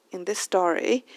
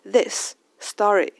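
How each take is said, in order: First: "In this story" with one shared S joining "this" and "story"; merged S sounds. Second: "this story" slow and louder, a break between the two S's; separate S sounds. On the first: Teacher shows two S's merged, linked pronunciation. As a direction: run "this" straight into "story" on a single S. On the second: Teacher takes the phrase apart, two separate S sounds. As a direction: say "this", then "story", each S on its own. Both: Shown as a demonstration. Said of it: "这两个S可以并在一起".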